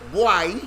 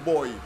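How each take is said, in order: First: It is said with a Jamaican accent. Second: It is said with a standard accent. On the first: This is how local people say it. "in Jamaica, and when they say boy" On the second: This is what an outsider insists is correct. "you pronounce it wrong, it's boy"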